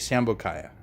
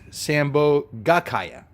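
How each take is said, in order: First: The word is shortened, dropping one syllable. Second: The word is said in full, every syllable included. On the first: The speaker calls it wrong. "I kept abbreviating it" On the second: The speaker calls it right. "That's the correct pronunciation"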